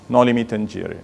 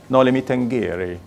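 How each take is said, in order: First: It is said in a dictionary style, six syllables. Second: It is said with an Italian-style pronunciation. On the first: "many dictionary online say noli me tangere, making it one, two, three, four, five, six syllables" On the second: "like the, the Italian way of saying it"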